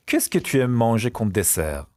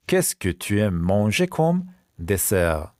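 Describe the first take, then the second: First: Said in the usual way. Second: Slow question, pause before "dessert"; slow repeat. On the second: Shown as a demonstration. Teacher repeats the dessert question for pupils, slowly. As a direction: space it out for learners.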